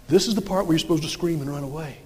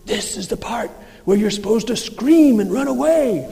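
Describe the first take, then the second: First: Said in the usual way. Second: Shrek. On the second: Retold or imitated. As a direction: play the ogre prompting terrified villagers. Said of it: "finally he pauses and he says".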